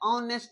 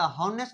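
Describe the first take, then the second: First: The word starts with a vowel sound. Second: The word starts with an h sound. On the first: The speaker calls it right. "ऑनेस्ट है" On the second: The speaker calls it wrong. "हॉनेस्ट नहीं"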